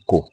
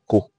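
First: The word is said on a low tone. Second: The word is said on a mid tone. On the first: It is a command to wrap. "the three tones are clearly presented" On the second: It means wrapped, in the past. "you can use a mid tone on Ko"

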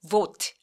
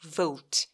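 First: The vowel is a plain, steady o sound. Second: The vowel glides from o toward u. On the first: The speaker calls it wrong. "vote 아니고" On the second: The speaker calls it right. "우까지"

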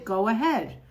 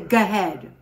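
First: Every sound of 'go ahead' is said clearly. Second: Sounds of 'go ahead' are dropped and run together. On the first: The speaker is being careful about their speech. The speaker calls it right. "or if I'm not rushing, I say" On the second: The speaker is talking casually without care. The speaker calls it wrong. "I don't say"

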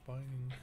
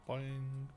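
No difference in how they are said.

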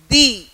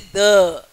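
First: The vowel is a long 'ee' sound. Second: The vowel is a short 'uh' sound. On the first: The speaker calls it right. "I say the" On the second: The speaker calls it wrong. "I don't say the"

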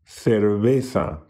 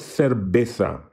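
First: The B sound is very soft and light. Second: The B sound is strong and explosive. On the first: The speaker calls it right. "but a very soft one" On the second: The speaker calls it wrong. "not an explosive B"

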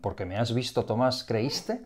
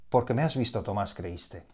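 First: It is said as a question, rising. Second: It is said as a statement, falling.

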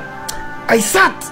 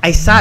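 First: It is said in an angry, forceful way. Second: It is said in a calm, neutral way.

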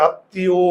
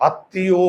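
Both takes have the same delivery.

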